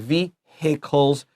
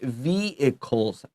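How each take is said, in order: First: The H sound in the middle is pronounced. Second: The H sound in the middle is silent. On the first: "but a lot of people do. Vehicles is also okay" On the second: "I don't say the H"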